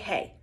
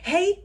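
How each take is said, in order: First: It is said calmly and flatly. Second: It is said excitedly with high energy.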